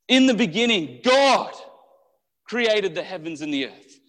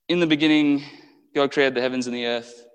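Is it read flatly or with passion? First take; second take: with passion; flatly. First: It is read with strong, excited passion. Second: It is read flatly, as if unimportant.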